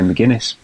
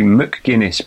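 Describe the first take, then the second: First: The 'c' is dropped, sounding like 'my Guinness'. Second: The 'c' after the M is clearly sounded. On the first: "I think you say McGuinness" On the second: "There's a C in there, isn't there? It should be McGuinness, but you wouldn't say you don't say it like that"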